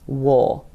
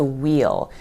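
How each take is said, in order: First: It is reduced further to sound like wool. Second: It is contracted to one syllable like wheel. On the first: "contracted even further to a little sound kind of like wool" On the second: "contracts to wheel"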